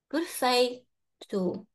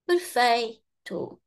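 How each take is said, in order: No difference in how they are said.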